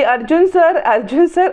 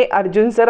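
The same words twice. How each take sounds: First: Shouting a name. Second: Said in the usual way. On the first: A narrator's reading. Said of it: "Sayali ओरडायला जाते". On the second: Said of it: "समोरून इकोसुद्धा मोठ्या मोठ्याने".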